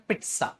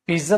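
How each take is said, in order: First: पिज्जा said as "pit-sa", with a clear ts sound; actual pronunciation. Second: Said in the usual way. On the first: Shown as a demonstration. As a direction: correct पिज्जा: "pitsa", not the everyday "piza". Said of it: "actual pronunciation है पिज्जा". (पिज्जा को "पित्सा" बोलो, ts साफ़ सुनाई दे) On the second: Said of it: "पिज्जा तो हम बोल देते हैं".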